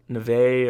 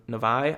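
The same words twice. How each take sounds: First: "Neve" as nuh-VAY; first pronunciation attempt. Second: "Nevi" as nuh-VYE; alternative pronunciation attempt. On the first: Host unsure of a player's name, "Neve" as nuh-VAY. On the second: Host trying the name another way, "Nevi" as nuh-VYE. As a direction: say "Nevi" ending to rhyme with "eye". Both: Shown as a demonstration. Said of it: "how they pronounce their name".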